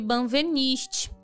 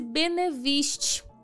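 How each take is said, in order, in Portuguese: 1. A segunda sílaba é pronunciada 'ven'. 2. A segunda sílaba é pronunciada 'ne'.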